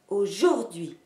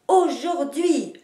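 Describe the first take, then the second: First: The stress is on the middle syllable. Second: The stress is on the first and last syllables. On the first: The speaker calls it wrong. "vous ne marquerez jamais l'accent sur la syllabe du milieu" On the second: The speaker calls it right. "en marquant les deux places de l'accentuation"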